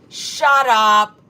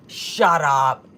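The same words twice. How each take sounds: First: Louder, stunned shout of shut up; loud disbelieving shout. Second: Said in the usual way. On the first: Real, not acted. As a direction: blurt it out in real disbelief. Reacting to shocking chat news.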